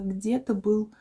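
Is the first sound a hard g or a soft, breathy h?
hard g. It begins with a hard, plosive g sound. This is a way locals do not speak. "у нас нет такого"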